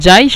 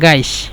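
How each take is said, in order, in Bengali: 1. এটি j ধ্বনি দিয়ে শুরু হয়। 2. এটি শক্ত g ধ্বনি দিয়ে শুরু হয়।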